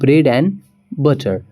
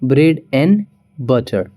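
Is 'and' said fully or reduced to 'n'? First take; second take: reduced; reduced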